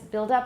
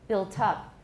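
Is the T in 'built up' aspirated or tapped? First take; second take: tapped; aspirated. First: The T is a soft tap like D. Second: The T is a clear aspirated stop. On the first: The speaker calls it wrong. "it sounds like it's B U I L D instead of T" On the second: The speaker calls it right. "we just get an aspirated T"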